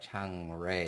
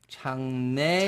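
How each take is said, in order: First: The second syllable begins with an R sound. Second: The second syllable begins with an N sound. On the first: This is how the name is said in English. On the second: This is how the name is said in Korean.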